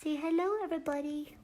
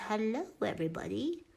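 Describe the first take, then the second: First: High, soft puppy voice; silly dog voice. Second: Lightly voiced puppy greeting, softer; a hint of a goofy puppy voice, rising on hello; silly dog voice. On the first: Pretend. Speaking for the puppy to the viewers, high silly dog voice. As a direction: squeak hello up high for the dog. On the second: Speaking for the puppy to the viewers, light silly dog voice. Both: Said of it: "Why do I talk like an idiot when there's a dog?".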